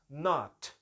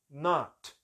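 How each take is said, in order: No difference in how they are said.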